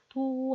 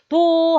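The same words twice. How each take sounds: First: The syllable is said softly. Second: The syllable is said loudly. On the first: The sound has low energy. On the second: The sound has high energy.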